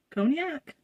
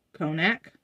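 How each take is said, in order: First: Cognac? asked high with a rising tune; Cognac? doubting her own pronunciation; unsure question. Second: Said in the usual way. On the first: Shown as a demonstration. Vlogger unsure how to say the scent note, questioning. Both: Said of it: "Co-, cognac?".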